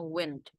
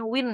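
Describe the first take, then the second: First: The word ends with an audible d sound. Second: The word ends without a final d sound. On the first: The speaker calls it right. "tapi dibilangnya wind" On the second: The speaker calls it wrong. "Jadi Anda jangan bacanya win ya"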